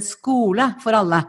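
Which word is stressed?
alle. The stress falls on the word alle. Everyone should have a school that suits them. The speaker calls it right.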